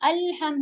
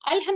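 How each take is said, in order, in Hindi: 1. यह शब्द धीरे बोला जाता है, व्यंजन साफ़ ठहराकर बोले जाते हैं। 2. यह शब्द जल्दी-जल्दी बोला जाता है, व्यंजन मुश्किल से ठहरते हैं। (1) "अल भी साकिन है तो टाइम लेगा, हम भी साकिन है तो टाइम लेगा" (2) "अलहम नहीं है"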